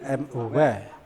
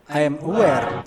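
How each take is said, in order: First: I and am are joined into one syllable. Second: The words I and am are said separately. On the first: The speaker calls it right. "tapi I'm aware" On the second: The speaker calls it wrong. "orang Inggris ngomongnya nggak I am aware"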